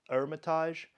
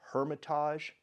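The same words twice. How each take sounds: First: The initial H sound is silent. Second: The initial H sound is pronounced. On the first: This is how French speakers say it. "The French don't pronounce the H" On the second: This is how an English reader would say it. "we would see it as"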